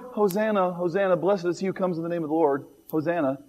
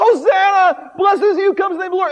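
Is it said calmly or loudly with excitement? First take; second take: calmly; loudly. First: It is said calmly and quietly. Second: It is cried out loudly and excitedly.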